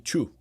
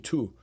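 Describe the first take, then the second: First: It starts with a 'ch' sound. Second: It starts with a plain 't' sound. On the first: The speaker calls it wrong. "That's like how we Brazilians say" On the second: The speaker calls it right. "We don't say two, right? That's probably the, the closer to the right pronunciation"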